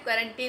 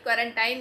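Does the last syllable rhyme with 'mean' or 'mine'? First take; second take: mean; mine. First: The last syllable rhymes with 'mean'. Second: The last syllable rhymes with 'mine'. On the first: The speaker calls it right. "क्वारंटीन होता है" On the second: The speaker calls it wrong. "क्वारंटाइन नहीं होता है"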